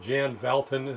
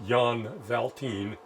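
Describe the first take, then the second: First: The name is pronounced the American way. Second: The name is pronounced a European way. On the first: "in an American way" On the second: "in a pseudo-European way"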